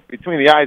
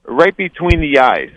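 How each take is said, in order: First: Put-on higher, doubtful echo in his own accent; questioning echo. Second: Slow, higher mock accent, more Russian than French; failed French, sounding Russian. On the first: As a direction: ask it back in disbelief, no accent. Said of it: "And I'm like". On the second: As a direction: badly fake a French accent that comes out Russian. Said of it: "that last one was like, I sounded definitely Russian".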